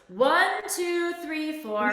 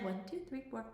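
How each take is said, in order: First: It is counted in a full, projected voice. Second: It is counted quietly under the breath. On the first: "full, you know, speech, like if you were on stage voice" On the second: "kind of under your breath, like not whispering"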